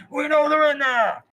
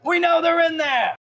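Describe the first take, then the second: First: High, loud holler with hand over mouth; muffled echoing shout. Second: Very high, loud, drawn-out yell; bandit shouting outside. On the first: Bandit yells from outside, muffled for a little echo. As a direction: yell through a covered mouth. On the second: Bandit yells to shopkeeper through door, first attempt, open shout. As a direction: holler the accusation through the door. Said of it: "trying to get the little echo". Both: Acted.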